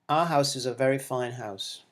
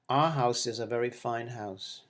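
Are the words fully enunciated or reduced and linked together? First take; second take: reduced; reduced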